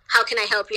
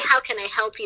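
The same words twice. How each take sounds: First: It is said in a cold, unfriendly tone. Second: It is said in a friendly, nice tone.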